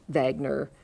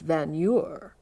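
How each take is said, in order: First: The name is said with an Americanized pronunciation. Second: The name is said with a non-Americanized pronunciation. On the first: The speaker calls it wrong. "very Americanized pub- pronunciations of their names" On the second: The speaker calls it right. "you have always pronounced your name incorrectly"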